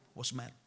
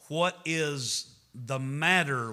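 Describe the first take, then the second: First: The words run together quickly. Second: Every word is said fully and slowly. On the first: "We say it fast like" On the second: "The correct way to say it is"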